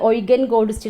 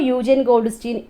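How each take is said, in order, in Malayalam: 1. ആദ്യ പേര് 'oy' ശബ്ദത്തിൽ തുടങ്ങുന്നു. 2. ആദ്യ പേര് 'yoo' ശബ്ദത്തിൽ തുടങ്ങുന്നു. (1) "എന്നാണ് എസ് സി ആറിൽ തന്നേക്കുന്നത്" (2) "നമുക്ക് പല രീതിയിൽ പ്രൊണൗൺസ് ചെയ്തേ കണ്ടിട്ടുണ്ട്"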